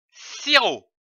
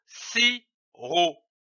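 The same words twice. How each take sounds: First: Said in the usual way. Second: SIROP slowly, in two separate beats; split into syllables. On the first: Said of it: "donne le mot sirop". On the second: Shown as a demonstration. Teacher joining two syllables into a word, split into syllables. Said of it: "L'association de ces deux syllabes".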